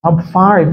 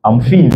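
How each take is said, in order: First: FINE with an "eye" vowel, lifted; correct pronunciation. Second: FINE said as "feen"; short "ee" vowel in FINE; mispronounced FINE. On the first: Shown as a demonstration. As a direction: say FINE as "fah-een", falling at the end. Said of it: "Vas-y". (FINE prononcé « faïne », voix plus haute) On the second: Retold or imitated. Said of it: "la personne va pas comprendre". (FINE prononcé « fine » à la française)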